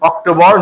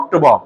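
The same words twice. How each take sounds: First: The final r sound is pronounced. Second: The final r sound is dropped. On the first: "যেমন আমরা বলি" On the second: "আমেরিকার অ্যাকসেন্টে এখানে অক্টোবর উচ্চারণ হয় না"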